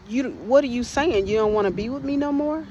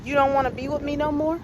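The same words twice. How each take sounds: First: Angry demand. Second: Higher, fast and threatening; retold husband's rising threat; menacing question. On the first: Retold or imitated. Angry husband confronting her. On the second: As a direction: fire the question at her with menace. Husband repeats, looks ready to kill.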